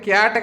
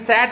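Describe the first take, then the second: First: The word begins with a k sound. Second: The word begins with an s sound. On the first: The speaker calls it right. "ఇగో సి ఏతో కలిసినప్పుడు ఇది క్యాట్ కదా" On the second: The speaker calls it wrong. "కానీ ఇది శాట్ అనం కదా"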